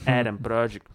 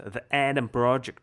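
First: American accent. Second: Adam Project in an American accent. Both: Shown as a demonstration. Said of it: "я там использовал американский акцент".

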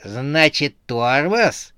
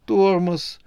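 First: Slightly raised, doubting question; menacing query. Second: High, sinking, deflated reply; crestfallen. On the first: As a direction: repeat it back as a threatening question. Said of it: "переспросила страшная Снегурочка". (недоверчиво переспрашивая) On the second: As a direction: let the word droop in defeat. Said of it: "упавшим голосом проговорил Седобородый". (упавшим голосом) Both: A narrator's reading.

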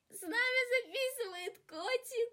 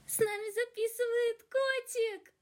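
First: Very high, much softer cooing. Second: Very high, soft cooing voice. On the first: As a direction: coo it more gently, stress нами. Repeat softer to cat. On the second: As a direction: coo at the kitten. First take of cat line. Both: Real, not acted.

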